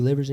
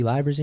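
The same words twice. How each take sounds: First: Livers said as LIV-ers, short i like "live"; name said right. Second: Livers said as LIE-vers, long i like "lie"; mispronounced name. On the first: Coach calling the freshman's name correctly, LIV-ers. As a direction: say "Livers" with a short i, rhymes with rivers. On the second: Coach reading the freshman's name wrong, LIE-vers. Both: Retold or imitated. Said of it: "Or he said livers".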